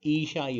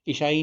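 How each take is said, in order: First: ईशाई with a long ee at the start; long first vowel. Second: ईसाई with a short i at the start; higher, louder ईसाई with clipped first i; short first vowel. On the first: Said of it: "ईशाई होता है". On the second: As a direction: cut the opening i of ईसाई short. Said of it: "ईसाई नहीं होता". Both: Shown as a demonstration.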